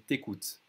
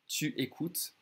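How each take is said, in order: First: The vowel of tu is dropped. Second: The vowel of tu is fully pronounced.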